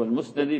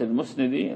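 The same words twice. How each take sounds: First: المسندي said al-musnadi, with an "a" after the nun; corrected fatha on nun. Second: المسندي mispronounced al-musnidi, with an "i" after the nun; mistaken kasra on nun. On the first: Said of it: "فهو المسندي بفتح النون". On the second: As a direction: slip to "ni" in المسندي, saying al-musnidi. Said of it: "فقلت المسندي فصححوا". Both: Shown as a demonstration.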